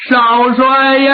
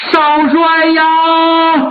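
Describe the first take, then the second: First: Slow wail that breaks and carries; wailing cry. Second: Long, drawn-out mourning wail; wailing cry. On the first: Mourner kneeling before Zongbao, crying out to him. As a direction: call out to him through tears. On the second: Mourner kneeling before Zongbao, wailing in grief. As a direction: stretch it into a grieving wail. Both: Acted. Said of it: "哭得特别痛".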